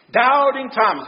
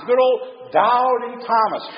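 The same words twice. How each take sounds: First: Said in the usual way. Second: Put-on Good old Doubting Thomas, slow and fond, leaning on Good; Good old Doubting Thomas drawn out. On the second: Shown as a demonstration. Preacher naming the famous doubter, slow and drawn out. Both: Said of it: "name almost automatically pops up".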